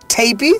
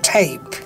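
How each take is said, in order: First: The final E is sounded as an extra vowel. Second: The word ends on the P sound. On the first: The speaker calls it wrong. "Do you pronounce it as tapey" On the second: The speaker calls it right. "So E is silent here"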